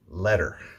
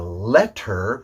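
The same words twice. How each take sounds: First: The middle t sounds soft, like a d. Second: The middle t is a hard t sound. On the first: The speaker calls it right. "we say letter" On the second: The speaker calls it wrong. "We don't say a letter"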